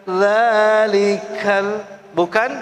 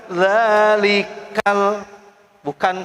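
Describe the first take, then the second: The two takes are said the same way.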